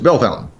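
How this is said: The name is pronounced with English sounds. The speaker calls it right. "No, it's"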